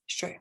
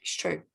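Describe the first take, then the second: First: Whisper. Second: Said in the usual way. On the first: Shown as a demonstration. Whispered repeat of it's true.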